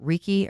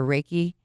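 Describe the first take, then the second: First: Reiki said with an "ee" first, REE-kee; first vowel of Reiki like "see"; pronounced REE-kee. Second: Reiki said with an "ay" first, RAY-kee; first vowel of Reiki like "day"; pronounced RAY-kee. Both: Shown as a demonstration. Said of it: "probably gonna say it wrong. Is it".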